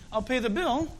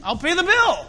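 First: Said in the usual way. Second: I'll pay the BILL said higher and louder; BILL pushed up high and loud, as a real promise; Paul's generous "bill" called out high and loud; emphatic offer. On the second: Shown as a demonstration. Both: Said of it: "He's suggesting".

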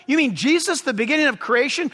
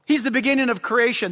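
First: Imitated sceptical question, rising at the end; doubting listener. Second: Said in the usual way. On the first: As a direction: echo it back as a quick, doubting question. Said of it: "You say".

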